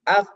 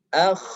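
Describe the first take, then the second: First: The kh sound is cut off abruptly. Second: The kh sound flows on with continuous breath. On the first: The speaker calls it wrong. "langsung terhenti atau tertahan suaranya, itu termasuk kesalahan" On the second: The speaker calls it right. "rakhawah mengalir suaranya"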